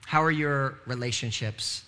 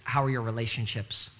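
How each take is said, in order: First: Each word drawn out slowly; slowed, searching question; slow, deliberate repeat. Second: Said in the usual way. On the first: Shown as a demonstration.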